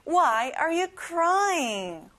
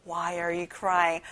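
First: Very slow and higher Why are you crying; slower again, higher. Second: Slow model. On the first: Teacher repeats it slower and higher for the class. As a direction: lift it and stretch every word. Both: Shown as a demonstration. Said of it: "한번 더 해볼게요".

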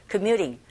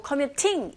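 First: "commuting" with the t flapped like a quick r, "commyuding"; "commuting" said the American way, t tapped. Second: "commuting" with a crisp, fully released t; "commuting" with a hard t, not tapped; clear t. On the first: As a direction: soften the t in "commuting" to a light tap. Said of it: "플랩 현상에 의해서 R 소리에 가깝게". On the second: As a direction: say the t in "commuting" plainly and sharply. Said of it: "이게 틀린 발음은 아니라는 거". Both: Shown as a demonstration.

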